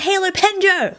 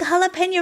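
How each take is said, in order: First: The word ends with a 'pen-jo' sound. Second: The word ends with a 'pay-nyo' sound. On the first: The speaker calls it right. "this whole time it was a Halo Penjo" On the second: The speaker calls it wrong. "I've been saying jalapeno wrong this whole time"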